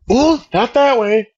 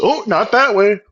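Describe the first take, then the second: First: Drawn out, higher teasing "Oh, not that way"; lightly imitated teacher taunting slowly; sing-song taunt. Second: Mock taunting. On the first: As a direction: tease the kid, stretching each word slowly. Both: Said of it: "she's fucking taunting me".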